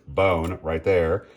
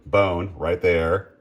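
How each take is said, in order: Both takes have the same delivery.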